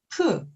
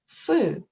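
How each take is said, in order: First: It begins with a stopped p sound. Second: It begins with a breathy f sound. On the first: "다계시가 있는 경우" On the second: "없는 경우"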